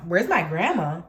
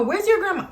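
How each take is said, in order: First: Low, challenging repeat of the question; incredulous echo. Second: High-pitched insistent demand; mock her pushy question up high; mimicked demanding woman. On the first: Retold or imitated. Teller answers the woman's demand for grandma, low incredulous challenge. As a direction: throw it back in disbelief, pitched down. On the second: Storyteller mimics the woman demanding grandma, high pushy voice.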